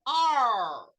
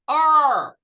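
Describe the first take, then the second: First: Are with a curled r; American Are. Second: Are with no r, louder; British Are. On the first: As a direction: curl the tongue on Are. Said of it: "Olha o R americano". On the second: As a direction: drop the r in Are. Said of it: "Olha o R inglês". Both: Shown as a demonstration.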